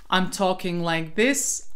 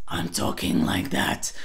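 First: Said in the usual way. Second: Low growly rattled take; rattle voice. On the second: Shown as a demonstration. Coach shows the transfer exercise, rattle voice. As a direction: switch into a deep raspy rattle. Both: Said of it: "try this transfer exercise in one breath".

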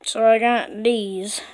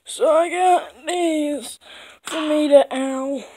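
First: A lightly voiced old man. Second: Slow, higher character voice; higher new voice. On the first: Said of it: "You just have the old man voice again". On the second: Acted. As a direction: lift the voice, drawn out. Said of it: "clears throat, redoes line".

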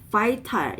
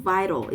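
First: Vital with a hard t; wrong vital. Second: Vital with a flap, "vai-ro"; American vital. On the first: Teacher repeats the wrong vital as an example. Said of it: "이게 아니고". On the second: Teacher repeats the right vital as an example. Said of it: "이게 아니고 vital". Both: Shown as a demonstration.

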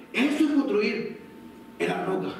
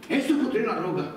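First: Slow, stressed delivery of "Eso es construir en la roca", fading at "roca"; slow emphasis. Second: Said in the usual way. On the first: Real, not acted. Preacher to congregation, slow emphatic line. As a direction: drive the point home slowly.

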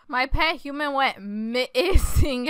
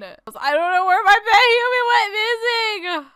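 First: Usual pitch, words stretched out slowly; slow repeating. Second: High, loud, whiny cry; mock-distraught wail. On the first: Acted. Player repeats the words while typing, slow repeating. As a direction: draw out MISSING at a slow pace. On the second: Player announces pet human missing, mock-distraught wail. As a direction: wail the loss melodramatically, pitched up.

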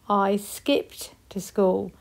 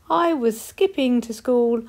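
First: Slowed down, each word clear; slow modelled past tense. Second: Said in the usual way. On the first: Shown as a demonstration. Teacher modelling skipped slowly for the class. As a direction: spell it out with your voice. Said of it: "use ed for skipped". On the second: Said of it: "read them in a sentence".

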